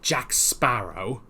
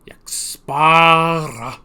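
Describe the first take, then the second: First: The name ends with a full 'oh' sound. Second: The name ends with a reduced 'ah' sound.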